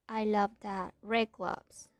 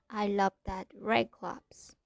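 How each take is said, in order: Both takes have the same delivery.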